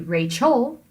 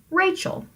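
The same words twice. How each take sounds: First: The stress is on the second syllable. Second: The stress is on the first syllable. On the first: The speaker calls it wrong. "You don't say Rachel, that would be trying to make it an I am" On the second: The speaker calls it right. "You put the stress on the first syllable"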